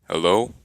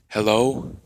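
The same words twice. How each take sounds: First: It is said in a put-on character voice. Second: It is said in his normal voice.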